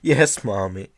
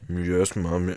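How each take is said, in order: First: The phrase is said clearly, not mumbled. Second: The phrase is mumbled indistinctly.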